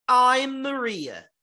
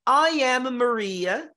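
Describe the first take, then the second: First: "I'm Maria" slow, with the stress on the I of "I'm"; contraction, stress on I. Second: "I am Maria" slow, three separate words with "am" stressed; full form, stressed. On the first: Teacher showing students the contracted form. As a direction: fold "I am" into one syllable and stress the I. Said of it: "E agora o forte está no I". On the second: Teacher contrasting full form with contraction for students. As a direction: say "I am" in full and lean on "am". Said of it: "pra que vocês percebam". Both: Shown as a demonstration.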